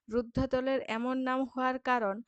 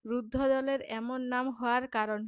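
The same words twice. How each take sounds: The two takes are said the same way.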